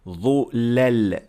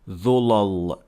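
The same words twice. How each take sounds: First: The lam is light, with an empty mouth. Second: The lam is heavy, with a full mouth. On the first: The speaker calls it right. "Again we say ظلل" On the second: The speaker calls it wrong. "not ظلل. That is not correct"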